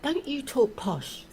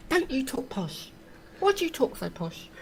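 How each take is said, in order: First: High, slow mocking taunt; mocking posh accusation. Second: High mocking schoolyard taunt; mocking posh accusation. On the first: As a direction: mimic the school bullies teasing. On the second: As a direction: mimic kids jeering at posh talk. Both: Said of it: "people used to take the mickey out of me".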